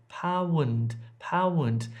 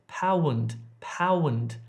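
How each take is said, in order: The two takes are said the same way.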